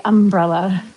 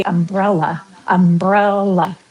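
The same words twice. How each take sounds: First: "umbrella" with the accent on "um"; stress on first syllable. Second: "umbrella" slowed, stressed um-BREL-la; stress on second syllable. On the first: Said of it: "They always say umbrella". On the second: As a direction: draw out the middle "brel" of "umbrella". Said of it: "Emphasis on the second". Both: Shown as a demonstration.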